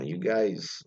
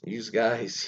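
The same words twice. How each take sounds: First: Said in the usual way. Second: Philadelphia "youse guys"; Philadelphia accent. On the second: Shown as a demonstration. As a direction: say "you" as "youse", with an added S, Philly-style. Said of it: "Philadelphia always add S's for things".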